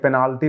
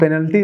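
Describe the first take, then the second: First: The second vowel is drawn out long. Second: The second vowel is short and reduced. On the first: This is how the politician says it. The speaker calls it wrong. "पेनाल्टी बोलते हैं" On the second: This is the proper way to say it. The speaker calls it right. "आज भी पेनल्टी नहीं बोल पाते"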